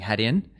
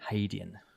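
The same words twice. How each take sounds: First: The first syllable sounds like 'had'. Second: The first syllable sounds like 'hay'. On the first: The speaker calls it wrong. "were saying Haitian, and then so there was some correction" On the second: The speaker calls it right. "get it right. Haitian"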